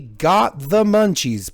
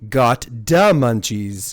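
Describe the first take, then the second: First: The middle word begins with a th sound. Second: The middle word begins with a d sound. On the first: The speaker calls it wrong. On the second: The speaker calls it right.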